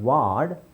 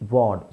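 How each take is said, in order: First: The vowel is an open unrounded 'aa' sound. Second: The vowel is a rounded 'aw' sound. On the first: The speaker calls it wrong. "It's not ವಾರ್ಡ್" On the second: The speaker calls it right. "It's actually ವಾರ್ಡ್. ಸ್ವಲ್ಪ ಆ ಅಂತ ಮಾಡಬೇಕಷ್ಟೆ"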